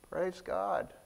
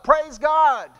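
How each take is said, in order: First: It is said with little enthusiasm. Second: It is said with full enthusiasm.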